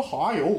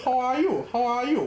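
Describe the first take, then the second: First: Said in the usual way. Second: Northeastern English. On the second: Shown as a demonstration. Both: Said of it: "我们说".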